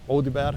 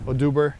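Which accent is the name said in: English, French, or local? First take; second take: local; English. First: The name is said with a local pronunciation. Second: The name is said with an English pronunciation.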